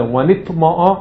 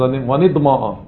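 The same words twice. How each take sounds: First: ונטמעו with a t-like Sharabi tet. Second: ונטמעו with a d-like Sanani tet. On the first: Teacher contrasting two accents, Sharabi t sound in ונטמעו. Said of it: "אשר עביו זה". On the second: Teacher contrasting two accents, Sanani d-like sound in ונטמעו. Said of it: "והסנעני זה". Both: Shown as a demonstration.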